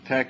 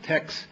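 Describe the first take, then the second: First: The word ends with a plain k sound. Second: The word ends with a ks sound. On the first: It names the typesetting system. "you pronounce it uh, tech, and it's my system" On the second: It names unrelated systems. "other systems that are pronounced tex"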